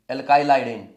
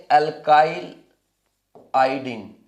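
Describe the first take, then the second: First: Said in the usual way. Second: alkyl iodine with a long pause before iodine; broken into parts. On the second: Shown as a demonstration. Teacher introduces a new term to the class, broken into parts. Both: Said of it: "तो अब इसको बोलेंगे".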